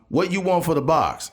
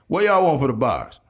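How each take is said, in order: First: It is said in an ordinary reading voice. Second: It is said in a put-on imitated voice.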